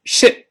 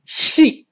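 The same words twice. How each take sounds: First: Shit 的元音读短; 对比示范 shit 的短音 i; 短元音. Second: Sheet 的元音拉长; 对比示范 sheet 的长音“一”; 长元音. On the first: (shit 读短音) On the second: (sheet 读长音) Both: Shown as a demonstration. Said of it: "注意长短音不一样".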